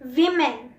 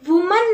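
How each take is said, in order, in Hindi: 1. पहला स्वर 'i' की आवाज है। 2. पहला स्वर 'oo' की आवाज है। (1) "ओ में ई की आवाज आती है" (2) "वुमन नहीं होता"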